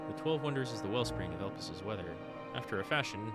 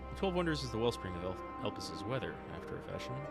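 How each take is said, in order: First: The intonation breaks the line into two separate sentences. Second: The intonation carries the line through as one sentence. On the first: The speaker calls it wrong. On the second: The speaker calls it right.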